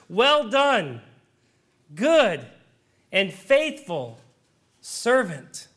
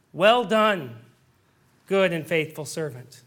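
First: Slow, drawn out, each word weighed; God's solemn blessing. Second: Said in the usual way. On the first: Acted. Preacher voicing God's blessing to the believer, slow and solemn. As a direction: lean on good and faithful with long pauses between.

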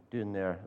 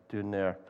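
No difference in how they are said.

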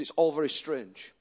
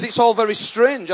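First: Quiet awe. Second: Emphatic retelling. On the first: Retold gym man, quiet awe. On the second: Same quote repeated, emphatic. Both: Retold or imitated.

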